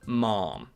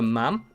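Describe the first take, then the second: First: A long, stretched vowel, close to mom. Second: A short vowel that rhymes with jam. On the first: The speaker calls it wrong. "some people stretch the A's to make it sound more like received pronunciation" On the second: The speaker calls it right. "Supposedly the correct way is to rhyme with jam"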